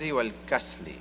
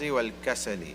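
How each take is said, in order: First: The s has no vowel after it. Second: The s is followed by a short a. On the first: The speaker calls it wrong. "I mispronounced it. I was saying" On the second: The speaker calls it right. "it's kasal with a fatha on the scene"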